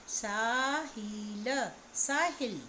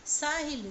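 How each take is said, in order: First: साहिल with a short इ, the right way; short vowel. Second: साहिल with a stretched long ई, as the wrong reading; wrong long vowel. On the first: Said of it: "उसे हमें लघु स्वर के साथ पढ़ना है". (साहिल में छोटी इ, सही उच्चारण) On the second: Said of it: "साहिल नहीं पढ़ेंगे". (साहिल में लंबी ई, गलत उच्चारण) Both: Shown as a demonstration.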